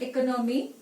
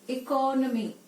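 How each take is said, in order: First: The first syllable is said short. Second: The first syllable is drawn out long. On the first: The speaker calls it wrong. "It is not economy" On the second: The speaker calls it right. "The first syllable, eco, is elongated"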